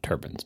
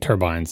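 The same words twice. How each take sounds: First: The last syllable has a short 'bin' sound. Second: The last syllable has a long 'bine' sound. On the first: The speaker calls it wrong. "and not turbines" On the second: The speaker calls it right. "They were modeling turbines"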